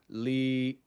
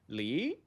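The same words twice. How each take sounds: First: The pitch stays level. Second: The pitch goes up. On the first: "The second one is flat" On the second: "one goes up"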